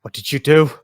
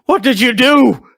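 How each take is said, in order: First: Louder, higher startled question; first take, raised but held; alarmed demand. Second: Very high, very loud repeated demand; second take, far higher and louder than the first; panicked shriek. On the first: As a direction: demand an answer in shock. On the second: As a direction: scream the question in horror. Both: Acted. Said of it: "Debria's just like".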